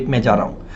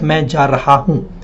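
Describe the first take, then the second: First: "Main ja raha hoon" quick and soft as "main ja-ra-oon"; casually blended "Main ja raha hoon"; natural spoken form. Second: "Main ja raha hoon" with each word separate; over-careful, unblended "Main ja raha hoon"; pronounced as written. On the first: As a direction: run "raha hoon" together without the h sounds. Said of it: "We say". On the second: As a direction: sound both h's in "raha hoon". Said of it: "but we don't speak as". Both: Shown as a demonstration.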